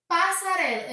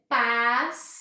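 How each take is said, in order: First: Said in the usual way. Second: PASSARELA bem esticada, PAS-SA-RE-LA; separado em sílabas. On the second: Shown as a demonstration. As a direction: diga "passarela" em quatro partes lentas, com pausas. (silabado, PAS... SA... RE... LA) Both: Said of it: "eu tenho quatro sílabas".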